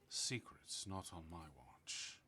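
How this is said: It is said in a sleepy, drunken voice.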